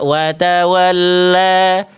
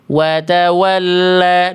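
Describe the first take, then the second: First: The w is said without rounded, pushed-out lips. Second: The w is said with rounded, pushed-out lips. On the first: The speaker calls it wrong. "tidak cukup kita baca" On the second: The speaker calls it right. "Dua-duanya wawunya monyong"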